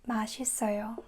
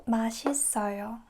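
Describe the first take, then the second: Both takes have the same delivery.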